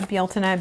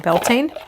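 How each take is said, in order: First: The name is said with the Irish pronunciation. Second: The name is said with an English pronunciation. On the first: "being the Irish pronunciation" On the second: "You could say Beltane"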